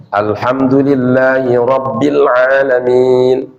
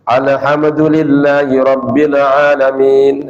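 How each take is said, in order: First: Slow, level chant with a clean open "Alamin"; correct recitation. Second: Slow level chant, vowels wrongly added in "Alhamdulillahi"; faulty recitation. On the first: Teacher showing how Fatihah is properly read, careful correct recitation. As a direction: chant it carefully, stretching "Alamin" from a clear ain. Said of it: "bacanya yang pas lah". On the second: Teacher warning students how not to read it, faulty drawn-out recitation. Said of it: "Jangan sampai kita baca". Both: Shown as a demonstration.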